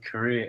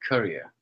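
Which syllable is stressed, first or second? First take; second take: second; first. First: The stress is on the second syllable. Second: The stress is on the first syllable. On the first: The speaker calls it right. "you want to stress the second part and not the first part" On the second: The speaker calls it wrong. "and not the first part"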